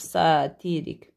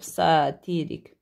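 First: The stress is on the middle syllable. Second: The same.

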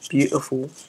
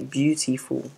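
First: It is said in a put-on British-style accent. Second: It is said in the speaker's normal accent. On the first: The speaker calls it wrong. "not beautiful" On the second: The speaker calls it right. "We say beautiful"

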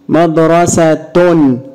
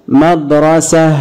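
First: The word ends in a t plus a vowel. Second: The word ends in a stopped h sound. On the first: "انطق معايا بالتشكيل ... اتنطق التاء" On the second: "طب انطق بالسكون ... اتنطقت هاء"

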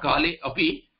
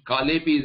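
First: The words are kept apart, with 'a' sounded. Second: The words merge, with no 'a' or pause. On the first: The speaker calls it wrong. "not Kale Api. There is no pause" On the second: The speaker calls it right. "Kale Pi is the reading"

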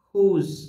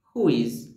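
First: It is said as one contracted word. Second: It is said as two separate full words.

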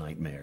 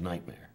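First: The stress is on the second syllable. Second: The stress is on the first syllable. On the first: The speaker calls it wrong. "you don't sing nightmare. ... if the accent's on the mare, it just it bothers me dreadfully" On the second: The speaker calls it right. "You sing nightmare"

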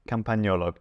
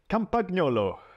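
First: The middle g is not heard as a hard g. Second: The middle g is sounded as a hard g. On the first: The speaker calls it right. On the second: The speaker calls it wrong.

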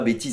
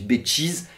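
First: The t is a plain t sound. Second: The t is said like tch. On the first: "On dit pas bêtise" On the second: "on prononce le tche dans bêtise"

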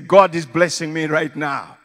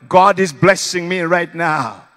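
First: It is said at normal volume. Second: It is shouted even more loudly.

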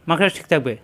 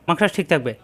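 The two takes are said the same way.

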